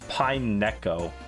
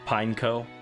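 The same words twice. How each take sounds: First: The word ends sounding like 'neko'. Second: The word does not end like 'neko'. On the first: "Like like Neko, like a cat" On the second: "That's how that's how I normally say it"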